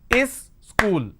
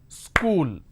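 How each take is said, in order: First: An extra vowel is added before it. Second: It is said as one syllable. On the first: The speaker calls it wrong. "School has two syllables, is school, which doesn't make any sense" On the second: The speaker calls it right. "School has only one syllable"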